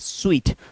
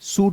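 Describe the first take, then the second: First: The word sounds like 'sweet'. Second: The word sounds like 'soot'. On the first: The speaker calls it right. "इसको बोलते हैं स्वीट" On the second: The speaker calls it wrong. "सूट बोलना है, नहीं"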